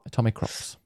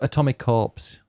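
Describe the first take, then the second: First: The ending sounds like "crops", as in farm crops. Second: The ending sounds like "corps", as in corporation. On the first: The speaker calls it right. "Because it's about crops that you grow" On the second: The speaker calls it wrong. "Atomicorps, you called it. Like a corporation"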